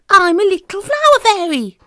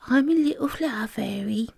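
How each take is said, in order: First: It is bellowed loudly. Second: It is mumbled quietly.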